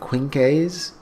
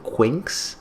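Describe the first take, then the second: First: The name ends without a plain x sound. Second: The name ends with an x sound. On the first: "at first I was saying Quinkes" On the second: "I'm just going to pronounce it like it's with an X"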